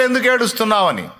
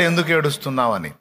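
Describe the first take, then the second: First: Angels asking inside the tomb, a little raised. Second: The Lord asking gently, lower and softer. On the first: Preacher voicing the angels asking Mary why she weeps, lightly lifted. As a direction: ask it as the angels would, slightly lifted. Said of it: "లోపల దూతలు అడిగారు". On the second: Preacher voicing the Lord asking Mary why she weeps, lower and softer. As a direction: ask it low and soft, the way the Lord would. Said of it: "బయట ప్రభు అడిగాడు". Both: Retold or imitated.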